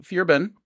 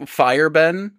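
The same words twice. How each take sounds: First: "Firben" with the first part like "fear"; corrected Danish pronunciation. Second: "Fireben" with the first part like English "fire"; mispronunciation imitated. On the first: Shown as a demonstration. Host correcting co-host's Danish, "Firben" starting like "fear". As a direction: say "Firben" starting "feer", not "fire". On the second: Host showing co-host his mistake, "Fireben" with English "fire". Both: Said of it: "you went Fireben, but Firben".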